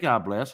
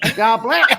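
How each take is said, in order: First: It is said in a low-pitched voice. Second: It is said in a high-pitched voice.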